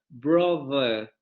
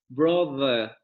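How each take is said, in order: Both takes have the same delivery.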